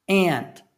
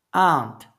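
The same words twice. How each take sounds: First: "Aunt" said like ant, with a flat front a; "Aunt" with the short a of cat; "Aunt" rhymes with pant; American aunt. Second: "Aunt" said ahnt, with an open back a; "Aunt" with the long a of father; "Aunt" sounds like ahnt, not ant; broad aunt. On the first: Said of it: "Existem duas pronúncias pra essa palavra". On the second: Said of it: "E a outra". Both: Shown as a demonstration.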